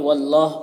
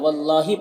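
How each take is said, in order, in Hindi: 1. शब्द का कोई अंतिम स्वर नहीं है। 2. शब्द 'i' स्वर से खत्म होता है। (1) "या फिर वल्लाह पढ़िए" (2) "या वल्लाही पढ़िए"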